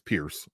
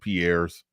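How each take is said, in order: First: The name ends with an s sound. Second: The name ends with a z sound. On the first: The speaker calls it right. "but it's Pierce" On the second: The speaker calls it wrong. "I've been calling him Piers"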